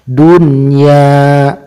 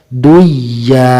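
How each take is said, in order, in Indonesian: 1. Huruf n diucapkan dengan jelas sebelum y. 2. Huruf n menyatu dengan y setelahnya. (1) "harus diidharkan" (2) "tidak boleh dibaca duya"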